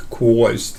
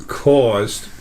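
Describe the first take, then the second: First: Caused in a broad northern accent, vowel rounded like kwoz; a quick joking northern accent on caused. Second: Said in the usual way. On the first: Shown as a demonstration. Joking about his trouble leaving the body, northern accent. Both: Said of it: "this is my northern accent".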